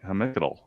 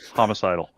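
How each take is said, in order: First: The first vowel sounds like 'eh'. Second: The first vowel sounds like 'oh'. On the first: The speaker calls it wrong. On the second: The speaker calls it right.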